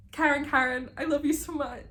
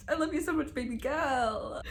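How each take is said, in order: First: High, excited cry of love; fangirl gushing. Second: Fangirl gushing. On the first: Reader gushing to viewers about Karen, high and excited. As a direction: squeal your love for the character. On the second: Declaring love for a character. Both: Real, not acted.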